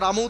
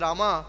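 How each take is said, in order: First: The name ends with the 'm' consonant. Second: The name ends with an added 'a' vowel. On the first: This is the proper pronunciation. The speaker calls it right. "যারা রাম উচ্চারণ করতে পারে না" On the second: This is how English speakers say it. The speaker calls it wrong. "বলে রামা"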